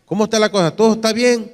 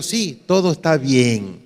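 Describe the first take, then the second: First: Raised-pitch retold question on "Todo está bien"; asking. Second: "todo está bien" slow, falling to a close; assured answer. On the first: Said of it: "le preguntaron". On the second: Retold or imitated. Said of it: "Y ella dijo".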